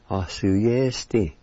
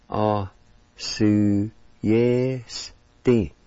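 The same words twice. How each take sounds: First: "A su yes ti" as one careful word; connected, deliberate "A su yes ti"; syllables joined. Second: "A su yes ti" very slow, each syllable held; very slow teaching take of "A su yes ti". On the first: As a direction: blend "A su yes ti" without pauses. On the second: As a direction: draw out "A... su... yes... ti". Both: Shown as a demonstration. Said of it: "And it's pronounced like this".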